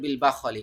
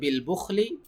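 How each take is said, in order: First: The first vowel of the word is a. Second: The first vowel of the word is u. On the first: "এখানে বাতে জবর আছে" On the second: "এখানে বাতে পে- পেশ ছিল"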